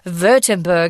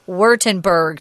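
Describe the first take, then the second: First: The word begins with a V sound. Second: The word begins with an English W sound. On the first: The speaker calls it right. "if you want to sound cool" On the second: The speaker calls it wrong. "Nobody says Württemberg, so don't do it"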